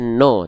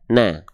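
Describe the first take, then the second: First: The vowel is a thick, o-like sound. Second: The vowel is a thin, a-like sound. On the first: The speaker calls it wrong. "dia nggak dibaca no" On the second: The speaker calls it right. "tapi dia dibaca na"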